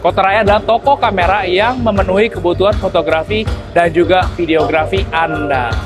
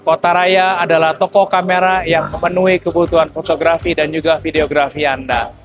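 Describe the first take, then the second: First: Noise reduction is set to its lowest level. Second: Noise reduction is set to its highest level. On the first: "tes fitur noise cancellation-nya yang level satu" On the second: "level noise cancellation yang paling tinggi"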